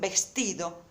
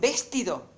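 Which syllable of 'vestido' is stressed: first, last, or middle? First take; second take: middle; first. First: The stress is on the middle syllable. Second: The stress is on the first syllable. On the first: The speaker calls it right. "esta es la sílaba tónica" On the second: The speaker calls it wrong. "Entonces esta no es la sílaba tónica"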